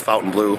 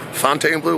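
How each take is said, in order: First: The first part sounds like 'fountain'. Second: The first part sounds like 'fon-tane'. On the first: The speaker calls it right. "I think it's actually pronounced Fountain Blue" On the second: The speaker calls it wrong. "whatever you want to say"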